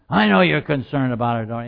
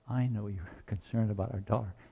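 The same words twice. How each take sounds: First: It is said in a harsh, irritated tone. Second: It is said in a gentle, kind tone. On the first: The listener feels dismissed. The speaker calls it wrong. "It was more harsh than that" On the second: The listener feels understood. The speaker calls it right. "when he was gentle and kind"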